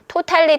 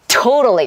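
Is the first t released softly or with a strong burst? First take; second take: softly; strong burst. First: The first t is released softly. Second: The first t bursts out with force. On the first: The speaker calls it wrong. "totally가 아니라" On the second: The speaker calls it right. "숨 마시고 totally 하고 탁 하고 내뱉는 거예요"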